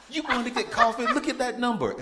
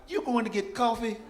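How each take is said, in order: First: Much higher, louder, laughing through it; laughing disbelief. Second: Much higher and louder shocked disbelief; can't believe she's walking off now; incredulous. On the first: Panicking son begging the tax lady to look, laughing. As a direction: plead with her through laughter. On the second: Panicked son asking the tax lady about coffee, incredulous. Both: Retold or imitated.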